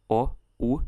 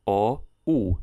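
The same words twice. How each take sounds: First: O and U as short, separate vowels; contrasting vowel pronunciation. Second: O and U as long, held vowels; contrasting vowel pronunciation. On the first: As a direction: say O, then U, each kept short. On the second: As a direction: draw out O, then U. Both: Shown as a demonstration. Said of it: "how I differ pronunciation between capital and lowercase vowels".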